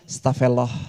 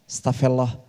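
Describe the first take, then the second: Both takes have the same delivery.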